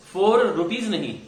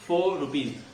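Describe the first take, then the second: First: फ़ोर with a rolled r; the mistake; wrong four rupees. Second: फ़ोर without r, foh; right four rupees. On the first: (गलत, आर वाला फ़ोर) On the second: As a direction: drop the r. (आर छोड़कर फ़ोर rupees) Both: Shown as a demonstration.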